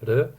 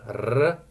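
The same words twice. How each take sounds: First: The r is a single quick tap. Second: The r is a rolled trill. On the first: "just like one one of those like taps" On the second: "instead of doing like r"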